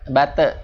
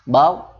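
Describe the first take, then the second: First: A vowel sound follows the final consonant. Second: It ends on a short bounced consonant. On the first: The speaker calls it wrong. "jangan bate" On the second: The speaker calls it right. "tapi bat, jeda sedikit"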